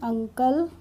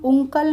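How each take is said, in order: First: The first vowel sounds like 'uh'. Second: The first vowel sounds like 'oo'. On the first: The speaker calls it right. "इसको हम पढ़ते हैं अंकल" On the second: The speaker calls it wrong. "उंकल नहीं पढ़ते हैं"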